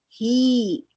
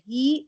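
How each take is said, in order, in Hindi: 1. स्वर दोगुना लंबा खींचा जाता है। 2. स्वर छोटा खींचा जाता है।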